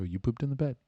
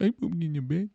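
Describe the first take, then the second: First: Soft, patient confirmation; gentle boyfriend. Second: High, small mock-girlfriend voice; sad girlfriend. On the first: Acted. Boyfriend confirms the news to girlfriend, gently. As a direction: repeat it kindly and quietly. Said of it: "You go". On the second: Girlfriend realizes what she did, small high voice. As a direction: squeak it in embarrassed disbelief. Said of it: "She's a little crying".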